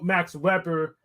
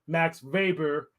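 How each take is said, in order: First: The name is pronounced the English way. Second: The name is pronounced the German way.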